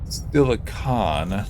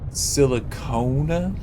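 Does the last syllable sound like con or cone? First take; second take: con; cone. First: The last syllable sounds like con. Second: The last syllable sounds like cone. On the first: "like how you control something" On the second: "like an ice cream cone"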